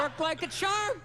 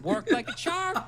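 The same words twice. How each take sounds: First: Slow, drawn-out repeat. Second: Laughing through the line. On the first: Acted. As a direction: stretch each word out slowly. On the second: Real, not acted. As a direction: laugh as you say it. First take, laughing.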